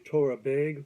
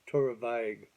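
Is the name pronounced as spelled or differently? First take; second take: as spelled; differently. First: The name is pronounced as it is spelled. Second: The name is pronounced unlike its spelling. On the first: "If you read it phonetically, you'd probably want to say" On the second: "my understanding it's pronounced"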